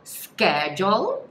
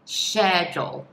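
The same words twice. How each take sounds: First: The word begins with a 'sk' sound. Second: The word begins with a 'sh' sound. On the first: This is the American English pronunciation. "esse C H tem um som de K" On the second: This is the British English pronunciation. "tem um som de X mesmo"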